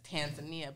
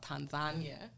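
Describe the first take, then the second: First: The name is said the usual American way. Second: The name is said the non-American way. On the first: The speaker calls it wrong. "As Americans, we we we pronounce it as Tanzania" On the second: The speaker calls it right. "I learned it's called Tanzania"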